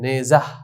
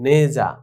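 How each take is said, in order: First: The word ends with an audible h sound. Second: The word ends on the vowel, h silent. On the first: The speaker calls it wrong. "এটি ভুল" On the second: The speaker calls it right. "বরং"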